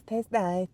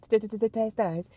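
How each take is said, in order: First: Said in the usual way. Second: "t-, t-, t-, t-, taste nice" with a scratched, stuttered "t". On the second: Shown as a demonstration. Stuttered remix of the phrase.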